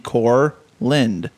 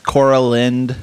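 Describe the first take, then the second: First: No extra vowel sits between the first two syllables. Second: An extra vowel sits between the first two syllables. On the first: The speaker calls it right. "it makes pretty good sense that it would be Corland" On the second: The speaker calls it wrong. "I don't know where they get the A"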